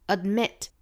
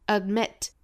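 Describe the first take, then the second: Both takes have the same delivery.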